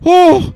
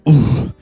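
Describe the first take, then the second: First: It is higher in pitch and louder. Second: It is lower in pitch and quieter.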